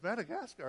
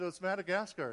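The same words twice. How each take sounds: First: Higher, questioning disbelief; acting out a stunned wife; incredulous echo. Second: Said in the usual way. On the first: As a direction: echo the name as a startled question. Wife echoes the name in disbelief.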